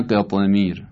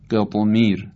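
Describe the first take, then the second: First: قطمیر slower with ق bouncing toward i; qalqala toward kasra, the wrong way. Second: قطمیر with ق bouncing toward a; qalqala toward fatha. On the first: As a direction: say قطمیر slowly, leaning ق to kasra as the wrong take. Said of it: "نه قطمیر". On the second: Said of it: "بهتره گفته بشه قطمیر". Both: Shown as a demonstration.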